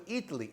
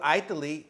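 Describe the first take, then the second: First: "Italy" said EE-tuh-lee with an ee start; correct Italy. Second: "Italy" said EYE-taly with an eye start; "Italy" mispronounced as EYE-tuh-lee; wrong Italy. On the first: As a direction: open "Italy" with a clean ee sound. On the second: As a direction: open "Italy" with a long eye sound. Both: Shown as a demonstration. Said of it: "you go to Italy".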